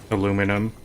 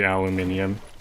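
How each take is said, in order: First: It is said as aluminum, with four syllables. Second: It is said as aluminium, with five syllables. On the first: This is the form the speaker normally uses. "I say aluminum" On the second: This is the form the speaker does not use. "I'm Canadian, I don't say aluminium"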